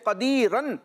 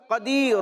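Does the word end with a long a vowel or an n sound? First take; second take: n sound; long a. First: The word ends with an n sound. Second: The word ends with a long a vowel. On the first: The word is read joined to what follows. "جیسے قدیرن" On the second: The reading stops on this word. "وقف کریں گے تو کیا ہوگا؟"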